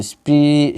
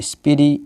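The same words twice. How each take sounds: First: "স্প্রি" with spr as one cluster; "স্প্রি" in one syllable; said together. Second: "স্পিরি" with an i between p and r; easy learner's "স্পিরি", spi-ri; broken cluster. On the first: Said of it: "এইটা একসাথে উচ্চারণ করতে হবে". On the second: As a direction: open spr into two syllables, "স্পিরি". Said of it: "এরমভাবেও উচ্চারণ করতে হবে". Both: Shown as a demonstration.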